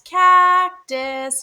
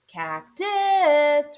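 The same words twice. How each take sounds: First: The stress is on the first syllable. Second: The stress is on the second syllable. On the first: The speaker calls it right. "It's the first syllable because you call it loud and clear" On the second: The speaker calls it wrong. "not cactus"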